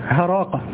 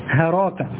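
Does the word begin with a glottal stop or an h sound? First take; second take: h sound; h sound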